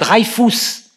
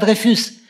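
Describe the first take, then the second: First: The name is pronounced the German way. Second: The name is pronounced the French way. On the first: "On germanise le nom" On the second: "on ne l'appelle pas Dreyfus"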